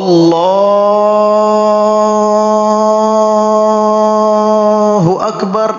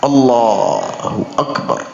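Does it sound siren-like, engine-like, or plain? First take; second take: siren-like; plain. First: It is wailed and drawn out like a siren. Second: It is said plainly and fluently.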